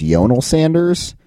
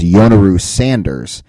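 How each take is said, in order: First: "Yonel", closed with "nel", no "oo"; Yonel pronunciation. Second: "Yonaru", ending in an open "roo" syllable; Yonaru pronunciation. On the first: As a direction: say "Yonel" ending on an L. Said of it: "website has him as". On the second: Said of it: "Chikara has posted him as". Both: Shown as a demonstration.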